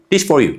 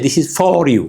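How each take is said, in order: First: "This for you" with "is" dropped and "for" weak; reduced weak form. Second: "is" and "for" each said fully; every word sounded apart, the wrong way; full careful form. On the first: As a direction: run it together like a native speaker. (ቅልጡፍ "This for you") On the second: ("This is for you" ብሙሉእ) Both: Shown as a demonstration. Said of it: "We don't say".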